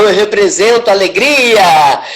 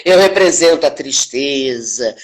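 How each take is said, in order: First: Caricatured joy, louder swell on the last word; mock joy. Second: Low, drooping caricature of sorrow; mock sadness. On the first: Actress showing how fake acting represents joy, mock-joyful. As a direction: put on exaggerated, unfelt happiness. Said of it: "Representar é você fazer alguma coisa que você não está realmente sentindo". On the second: Actress showing how fake acting represents sorrow, mock-sad. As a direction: put on unfelt sadness, pitch sinking. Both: Shown as a demonstration.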